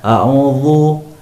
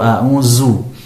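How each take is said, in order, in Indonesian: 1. Bunyi dh dibuat tebal dan berat. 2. Bunyi dh diganti dengan z. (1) "huruf dzal ini ditebalkan" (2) "huruf dzal seringkali diganti dengan huruf zai"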